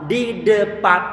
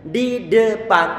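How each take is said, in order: Both takes have the same delivery.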